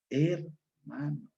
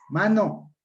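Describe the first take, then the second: First: The word is said with its first syllable. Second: The first syllable is left off the word. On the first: The speaker calls it right. "Palabra correcta" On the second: The speaker calls it wrong. "palabra con aféresis"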